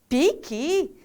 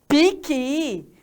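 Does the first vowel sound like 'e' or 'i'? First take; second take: i; i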